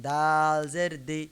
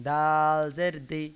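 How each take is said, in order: Both takes have the same delivery.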